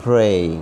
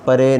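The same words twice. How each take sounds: First: پرے as one syllable, p straight into r; correct pronunciation. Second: پرے split as pa-ray; wrong pronunciation. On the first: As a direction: model a long پرے with no vowel after the p. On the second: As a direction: put a short vowel between p and r in پرے. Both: Shown as a demonstration. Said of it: "پرے نہیں پڑھنا".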